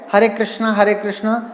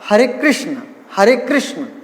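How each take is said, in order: First: The words are pronounced carelessly, not clearly. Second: The words are pronounced carefully and clearly. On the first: The speaker calls it wrong. "कई बार क्या है हरे कृष्णा हरे कृष्णा इस प्रकार से बोलते हैं" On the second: The speaker calls it right. "शुद्ध उच्चारण"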